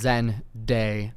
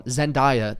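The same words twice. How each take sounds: First: Zendaya broken up as "Zen-DAY-uh"; correct pronunciation. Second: Zendaya said "zen-DIE-uh"; common mispronunciation. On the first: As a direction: say Zendaya slowly, with "day" in the middle. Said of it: "her name literally says". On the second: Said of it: "everyone pronounces Zendaya's name wrong". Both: Shown as a demonstration.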